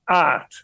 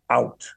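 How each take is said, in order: First: "art" as Yorkshire for out, open vowel; Yorkshire dialect. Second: Said in the usual way. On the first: Shown as a demonstration. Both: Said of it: "it was dialect".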